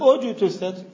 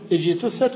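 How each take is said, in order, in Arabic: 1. تبدأ الكلمة بصوت 'u'. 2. تبدأ الكلمة بصوت 'i'.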